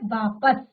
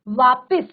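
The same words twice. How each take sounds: First: The second syllable has a plain 'a' vowel. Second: The second syllable has an added 'i' vowel. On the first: The speaker calls it right. "सही शब्द क्या है" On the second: The speaker calls it wrong. "ई की मात्रा हमने खुद ही यहां पर लगा दी"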